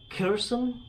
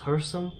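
First: The name begins with a K sound. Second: The name begins with an H sound. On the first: The speaker calls it wrong. "I've been calling it Kherson" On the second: The speaker calls it right. "the K is silent, so it's pronounced Kherson, like her"

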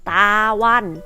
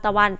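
First: The first syllable is full with a long vowel. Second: The first syllable is reduced to a short vowel. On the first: "คำว่าตาวัน" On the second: "เปลี่ยนเป็นตะวัน"

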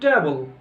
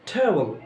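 First: The first sound is a plain unaspirated t. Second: The first sound is an aspirated t. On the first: The speaker calls it wrong. "যারা শুদ্ধ করে তারা বলে ট্যাবল" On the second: The speaker calls it right. "আসলে ট্যাবলও না, টেবিলও না, ট্যাবল, ঠ"

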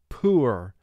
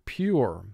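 First: The vowel is a plain oo without a y. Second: The vowel starts with a y glide before oo. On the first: The speaker calls it wrong. "which would simply be the oo sound, and you would say the word poor" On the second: The speaker calls it right. "let's pronounce it the way we normally do, pure, where we're representing the first long sound"

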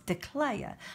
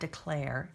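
First: It is said in a Southern drawl. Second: It is said in a standard, non-Southern accent. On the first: The speaker calls it right. "if you're from the South, you gotta say it" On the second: The speaker calls it wrong. "It's not declare"

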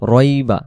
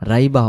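First: The first vowel is heavy with rounded lips. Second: The first vowel is thin and open. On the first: The speaker calls it right. "মানে মুখটা গোল হয় যে অক্ষরগুলো বলার সময় সেটাই হলো মোটা।" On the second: The speaker calls it wrong. "রাইবা হবে না"

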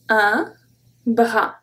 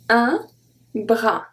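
Both takes have the same delivery.

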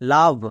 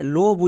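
First: The vowel is an open 'uh' sound. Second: The vowel is a rounded 'oh' sound. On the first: The speaker calls it right. "এখানে ও এর জন্য আ sound হবে" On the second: The speaker calls it wrong. "অনেকে ভুল করে লোভ উচ্চারণ করে"

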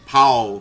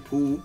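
First: The name is said with an American pronunciation. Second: The name is said with a British pronunciation. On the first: "I know the Americans say Paul Phoenix" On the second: "I say [name]"

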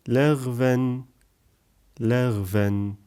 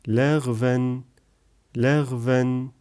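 No difference in how they are said.

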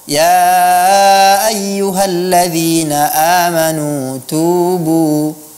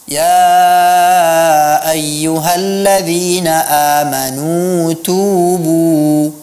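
First: The u vowel is weak and not fully rounded. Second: The u vowel is fully rounded and clear. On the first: The speaker calls it wrong. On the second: The speaker calls it right. "pelafalan dhammah juga"

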